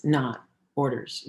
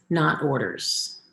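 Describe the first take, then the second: First: Said in the usual way. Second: Not orders, slowed and leaned on; slow stress on orders. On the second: Shown as a demonstration. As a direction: spell out not orders word by word. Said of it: "Give choices, not orders".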